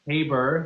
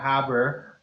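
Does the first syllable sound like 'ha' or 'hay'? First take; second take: hay; ha. First: The first syllable sounds like 'hay'. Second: The first syllable sounds like 'ha'. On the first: The speaker calls it right. "it's [name] with a hey" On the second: The speaker calls it wrong. "not a ha on the on the Haber"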